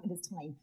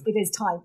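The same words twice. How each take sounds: First: Much softer, dropped low; quiet, ominous. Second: Said in the usual way. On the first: Shown as a demonstration. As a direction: murmur it darkly. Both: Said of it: "Now it's time".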